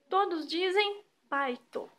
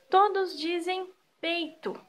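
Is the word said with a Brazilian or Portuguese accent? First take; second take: Portuguese; Brazilian. First: It is said with a Portuguese accent. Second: It is said with a Brazilian accent.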